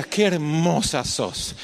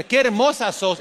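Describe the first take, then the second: First: Tender compliment to daughter. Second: "Qué hermosa sos" said higher and quicker, a passing stranger's flattery; a vulture tossing off "Qué hermosa sos"; lightly voiced flatterer. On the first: Retold or imitated. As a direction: say "Qué hermosa sos" slowly and tenderly to the daughter. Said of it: "Le decía". ("Qué hermosa sos" dicho despacio y con ternura) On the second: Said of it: "le dijera". (un halagador ligero: "Qué hermosa sos" más agudo)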